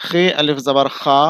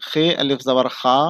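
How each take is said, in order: The two takes are said the same way.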